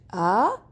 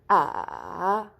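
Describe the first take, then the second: First: The pitch rises from low to high. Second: The pitch dips down and then rises. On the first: "you start from down and you go you go suddenly up" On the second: "you go from up to down, then up again"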